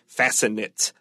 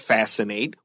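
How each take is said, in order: First: The last syllable ends with a short 'it' sound. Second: The last syllable ends with a long 'ate' sound. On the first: It would be a noun or adjective. The speaker calls it wrong. "If it's a noun or adjective, we will say fascinate. But that's not a word" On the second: It is used as a verb. The speaker calls it right. "this is a verb, so don't forget our A T E has a long A sound"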